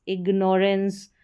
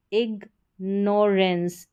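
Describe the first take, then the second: First: Said in the usual way. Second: ignorance slowly split as "ig - norens"; syllable by syllable. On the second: Shown as a demonstration. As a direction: break ignorance into slow teaching chunks. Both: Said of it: "उच्चारण एंस करके होगा".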